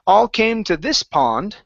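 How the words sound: The word this carries the strongest stress. The speaker calls it wrong. "you emphasized this and came down on pond"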